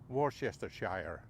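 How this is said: The name is said with an American pronunciation. "Americans would call it Worcestershire"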